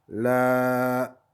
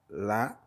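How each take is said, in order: First: The vowel is held for two counts. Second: The vowel is held for one count.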